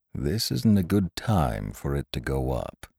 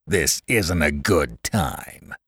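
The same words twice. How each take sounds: First: Said in the usual way. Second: Slow, mocking echo of the boss; scornful mimicry. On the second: A narrator's reading. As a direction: throw his words back slowly in mockery. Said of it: "he mimicked".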